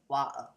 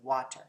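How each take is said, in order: First: The middle consonant is a glottal stop. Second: The middle consonant is a t sound. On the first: "they mark it with that glottal stop" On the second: "the true t stop sound that we have in the word water"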